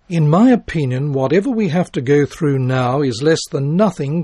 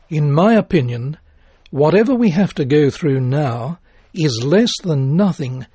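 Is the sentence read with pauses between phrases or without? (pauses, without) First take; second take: without; pauses. First: It is read straight through without pauses. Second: It is read with pauses between phrases. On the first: The speaker calls it wrong. "Listen to these words without phrasing" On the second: The speaker calls it right. "the same words using pauses to break them into phrases"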